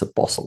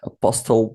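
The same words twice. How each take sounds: First: The t in the middle is silent. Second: The t in the middle is clearly pronounced. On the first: The speaker calls it right. "but it's apostle" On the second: The speaker calls it wrong. "there's T there. So I, I got used to say apostle"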